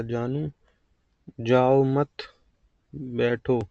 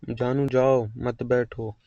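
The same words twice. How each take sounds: First: जाओ मत as one phrase, long break, then बैठो; pause after मत. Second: Slow, जाओ set apart, then मत बैठो together; pause after जाओ. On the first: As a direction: hold a clear pause between मत and बैठो. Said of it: "या दो तरीके से". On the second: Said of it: "ये अलग अलग हैं". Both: Shown as a demonstration.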